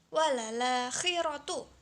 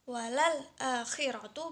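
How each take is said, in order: First: The glottal stop drops and the vowel joins 'l'. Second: A glottal stop is kept before 'akhiratu'.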